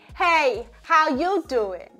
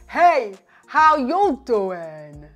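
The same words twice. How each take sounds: First: It is said with a medium, neutral voice. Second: It is said with a low, deep voice. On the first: "a more neutral larynx positioning" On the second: "intentionally say with a lower larynx"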